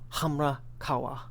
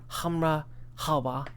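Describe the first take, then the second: First: The second word begins without an H sound. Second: The second word begins with an H sound. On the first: The speaker calls it right. "Not the, not the H sound on the next one" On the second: The speaker calls it wrong. "No, no"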